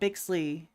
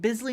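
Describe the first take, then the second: First: The name is said with a 'ks' sound. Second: The name is said with a plain 's' sound. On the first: The speaker calls it wrong. "not Bixley" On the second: The speaker calls it right. "Oh wait, Bisley"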